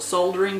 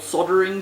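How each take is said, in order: First: The word is said with a clear L sound. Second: The word is said without an L sound. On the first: This is how Australians say it. "in Australia we call it soldering because it has an L in it" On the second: This is how the rest of the world says it. "everyone else in the world appears to call soldering"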